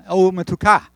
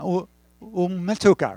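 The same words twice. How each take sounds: First: Umetuka with the weight on the final -ka; stress on the last syllable. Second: Umetuka with weight on U-, first syllable; stress on the first syllable. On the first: Pastor corrects his Hebrew for the congregation, last-syllable stress. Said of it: "no, last syllable". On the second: Pastor's first attempt before Sharon corrects him, first-syllable stress. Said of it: "Sharon was correcting my accent". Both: Shown as a demonstration.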